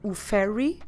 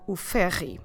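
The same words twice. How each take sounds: First: The r sounds like an English r. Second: The r sounds like a Portuguese r.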